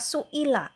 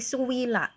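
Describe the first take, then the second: First: A full glottal stop is heard before the i. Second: A clear w sound replaces the glottal stop. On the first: This is the original form of the word. "Yang asalnya su'ila" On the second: The hamzah is replaced by another letter. "maka diibdal tadi ya menjadi suwila"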